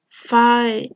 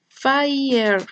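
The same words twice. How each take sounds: First: The middle vowel is smoothed and not fully produced. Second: The middle vowel of the triphthong is fully pronounced.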